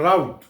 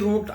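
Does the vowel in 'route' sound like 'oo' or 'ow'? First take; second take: ow; oo. First: The vowel sounds like 'ow', as in out. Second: The vowel sounds like 'oo', as in root.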